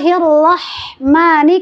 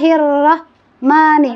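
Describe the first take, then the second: First: The breath flows audibly through the h sound. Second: The breath does not flow through the h sound. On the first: The speaker calls it right. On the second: The speaker calls it wrong.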